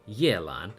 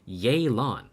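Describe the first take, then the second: First: The name starts with a Mandarin-style first syllable. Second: The name starts with an English-style 'Ye' syllable. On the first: This is the original Chinese name. The speaker calls it right. "instead of" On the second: This is the localized version of the name. The speaker calls it wrong. "the localizers thought it was a fucking fantastic idea to make her name"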